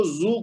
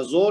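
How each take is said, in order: First: "زو" said as zu; correct vowel demo. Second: "زو" said as zo; wrong vowel demo. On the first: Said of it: "تو اس کو زو کہنا". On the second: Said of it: "زو نہیں کہنا". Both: Shown as a demonstration.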